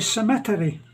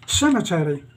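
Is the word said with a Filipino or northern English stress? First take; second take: Filipino; northern English. First: It has the Filipino stress pattern, on another syllable. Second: It has the speaker's northern English stress pattern.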